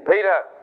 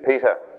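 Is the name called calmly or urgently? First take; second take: urgently; calmly. First: The name is called urgently. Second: The name is called calmly.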